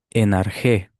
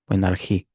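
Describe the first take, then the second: First: "Enargé" read slowly as Greek, ending in é; Greek word, é ending. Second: Soft alternative reading "enargí", ending in í; Greek word, í ending. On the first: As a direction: say "Enargé" with a final open é sound. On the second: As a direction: say "enargí" with a final í sound. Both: Shown as a demonstration. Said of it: "según la pronunciación".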